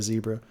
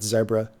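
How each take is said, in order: First: Said in the usual way. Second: Zebra with a short e, "ZEB-ra"; owner's pronunciation. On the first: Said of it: "instead of Zebra". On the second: Shown as a demonstration. Streamer quoting the plugin owner's pronunciation, short-e Zebra. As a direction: say Zebra to rhyme with Debra. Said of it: "that's how the owner pronounces it".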